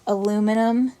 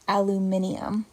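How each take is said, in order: First: The word is said with four syllables, aluminum. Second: The word is said with five syllables, aluminium. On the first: This is the American form of the word. "is how we say it in the U S" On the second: This is the British form of the word. "British English, it's pronounced aluminium"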